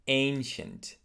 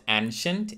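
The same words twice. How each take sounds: First: ANCIENT opening with a long A; correct ancient. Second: ANCIENT opening like "an" in "ant"; mispronounced ancient. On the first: Teacher modelling ancient for learners, long A. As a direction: say "ancient" as "AIN-shent". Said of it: "it is ancient". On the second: Teacher showing the mistake, ancient with short A. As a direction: say "ancient" as "AN-shent". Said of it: "is not ancient". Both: Shown as a demonstration.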